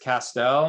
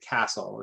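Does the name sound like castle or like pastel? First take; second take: pastel; castle. First: The name rhymes with pastel. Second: The name sounds like the word castle. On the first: The speaker calls it right. "my last name rhymes with pastel" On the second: The speaker calls it wrong. "a lot of people pronounce it castle"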